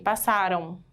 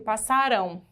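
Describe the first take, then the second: First: The final syllable is weak and unstressed. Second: The final syllable is strong and stressed. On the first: The action happened in the past. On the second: The action will happen in the future.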